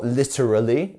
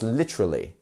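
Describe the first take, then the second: First: Every letter is pronounced in full. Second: Some sounds in the middle are dropped. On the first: The speaker calls it wrong. "it's not literally" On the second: The speaker calls it right. "so many letters that we don't pronounce"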